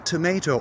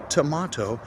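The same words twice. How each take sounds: First: TOMATO as tə-MAY-toh; may-vowel variant. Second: TOMATO as tə-MAH-toh; ah-vowel variant. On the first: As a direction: put MAY in the middle of tomato. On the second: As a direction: put MAH in the middle of tomato. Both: Shown as a demonstration. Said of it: "if you pronounce tomato or tomato".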